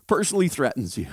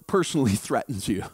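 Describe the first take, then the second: First: Said in the usual way. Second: With a laugh. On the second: Real, not acted.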